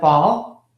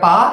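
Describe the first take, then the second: First: The word ends with a clear L sound. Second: The word ends without any L sound. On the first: The speaker calls it right. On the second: The speaker calls it wrong.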